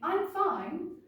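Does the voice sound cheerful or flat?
cheerful. The voice sounds cheerful and bright.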